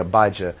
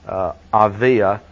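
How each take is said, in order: First: The name has a b and a j sound. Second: The name has a v and a y sound. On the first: This is the usual English form of the name. "I know in English, probably say Abijah" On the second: This is the Hebrew form of the name. "usually in Hebrew, we would say"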